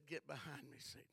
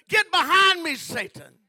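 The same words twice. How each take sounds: First: Much lower and softer, calm and firm; quiet rebuke. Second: Roared much higher and louder; furious shout. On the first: Jesus answering Satan again, soft and firm. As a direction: say it low, settled and certain. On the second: Jesus ordering Satan away, a huge shout. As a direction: drive the devil off with a roar. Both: Acted.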